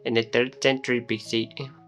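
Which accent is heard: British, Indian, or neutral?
Indian. It is spoken in an Indian accent. "into Indian accent"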